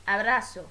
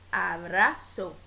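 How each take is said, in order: First: Said in the usual way. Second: "abrazo" slowly split into a-bra-zo; "abrazo" in three deliberate beats, a, bra, zo; syllable by syllable. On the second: Shown as a demonstration. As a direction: separate each syllable of "abrazo". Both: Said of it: "la división silábica".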